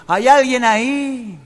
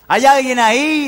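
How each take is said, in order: First: Cave echo. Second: Slow high call into a cave; shouting. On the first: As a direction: stretch it like a fading echo. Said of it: "y el eco". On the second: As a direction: call out slowly into the dark. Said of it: "así gritaba el médico". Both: Acted.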